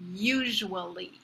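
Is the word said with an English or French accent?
English. The word is said with an English accent. "the pronunciation in English"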